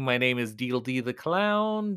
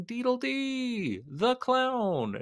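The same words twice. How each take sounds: First: Said in the usual way. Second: High, slow, drawn-out clown name. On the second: Shown as a demonstration.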